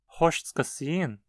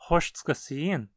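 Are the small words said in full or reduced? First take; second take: reduced; reduced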